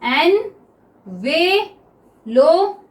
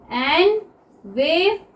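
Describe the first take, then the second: First: envelope drawn out very slowly, each syllable held; teacher's slow model of envelope; very slow demo. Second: Envelope said very slowly; teacher slowing the word; slow demo. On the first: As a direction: stretch envelope out for the class. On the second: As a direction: stretch envelope for learners. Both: Shown as a demonstration. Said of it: "बोल के देखिए envelope को".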